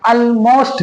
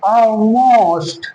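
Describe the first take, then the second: First: Almost as "al-most" with a clear L; drawn-out Almost, tongue landing on the L; wrong pronunciation. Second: Almost as a long "aw-most", L hidden; drawn-out Almost with rounded first vowel; dark L demo. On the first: Teacher shows what not to say, clear-L mispronunciation. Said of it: "Almost नहीं". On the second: Teacher models it for learners, dark L demo. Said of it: "बल्कि हम क्या बोलेंगे". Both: Shown as a demonstration.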